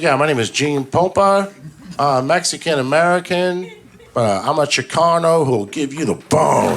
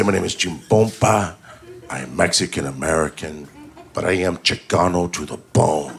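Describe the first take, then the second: First: Put-on casual, halting kid's recitation; schoolkid reciting. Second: Low, measured, solemn declaration; militant Chicano uncle. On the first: Nephew introducing himself to the class, unsure and casual. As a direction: fumble through it lightly, pitched up at times. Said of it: "Like, first day of school". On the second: Acted. Uncle teaching his nephew a proud introduction, low and solemn. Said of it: "No, you gotta say".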